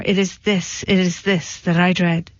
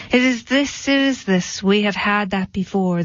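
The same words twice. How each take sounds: First: Said in the usual way. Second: Understated indignant bellman, pitched up at the start. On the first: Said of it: "And the baker replied, "Let me say it once more". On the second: A narrator's reading. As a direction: throw the words back with a touch of indignation. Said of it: "the bellman indignantly said".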